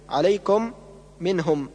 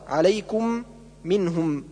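First: The u vowel is half-rounded, toward a. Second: The u vowel has fully rounded lips. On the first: The speaker calls it wrong. "بالضمة ما بين الضمة والفتحة" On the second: The speaker calls it right. "بضم الشفتين وإبرازهما"

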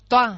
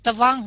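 First: The second consonant glides like a w sound. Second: The second consonant is a clear v sound. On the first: The speaker calls it right. "thì mình đọc là toang" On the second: The speaker calls it wrong. "Thay vì mình đọc tvang"

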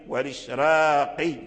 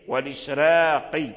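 First: The r sound is thin and light. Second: The r sound is thin and light.

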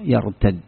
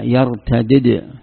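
First: The two d sounds merge into one doubled d. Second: The two d sounds are said separately with a vowel between. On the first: This is the form used in the Tamim dialect. "يرتد هذا مدغم، الدال بالدال" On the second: This is the form used in the Quraysh dialect. "وإذا فككت الإدغام قلت هذا يرتدد، وأتيت بالدال بعد الدال"

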